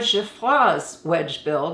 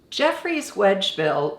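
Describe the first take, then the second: First: The name is pronounced the French way. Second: The name is pronounced the English way. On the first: "the French way" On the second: "the English way"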